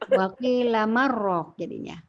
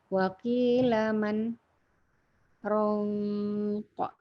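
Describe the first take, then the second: First: Man and raq merge without any pause. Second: There is a short pause between man and raq.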